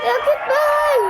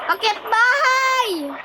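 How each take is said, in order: First: Much higher squeal of the call; high excited call. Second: High, slow sing-song call; excited call. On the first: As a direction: shriek it out in delight. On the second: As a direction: announce it with glee, drawn out. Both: Pretend. Calling out a game move.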